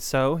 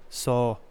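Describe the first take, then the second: First: The word is said in a neutral accent. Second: The word is said with a Canadian accent. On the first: "instead of saying so" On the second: "The one that gets me of yours is"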